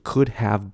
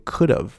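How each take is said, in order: First: Have is said as a separate, full word. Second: Have is linked and reduced to sound like of. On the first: The speaker calls it wrong. "拆开来念" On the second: The speaker calls it right. "会变像of"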